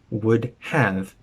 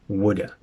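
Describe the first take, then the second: First: Both words are said fully and separately. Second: It is reduced to one short word. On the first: "completely shortening from would have" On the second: "to woulda"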